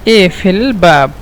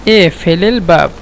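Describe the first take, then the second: No difference in how they are said.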